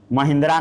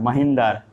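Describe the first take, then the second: First: महिंद्रा with a final long "aa", the wrong way; wrong pronunciation. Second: महेंद्र as "ma-hen-dar", with no final vowel; correct pronunciation. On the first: Teacher shows students the wrong reading: महिंद्रा ending in "draa". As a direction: says महिंद्रा as the name of the car brand, ending on "draa". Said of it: "महिंद्रा नहीं पढ़ना है". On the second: Teacher gives students the right reading: महेंद्र, "ma-hen-dar". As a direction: says महेंद्र with a short clipped ending. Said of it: "इसको हम पढ़ते हैं महेंद्र". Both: Shown as a demonstration.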